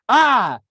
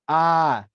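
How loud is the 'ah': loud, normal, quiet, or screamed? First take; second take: screamed; normal. First: The sound is a full scream. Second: The sound is at ordinary indoor volume. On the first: "I screamed at the ant" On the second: "Inside voice level"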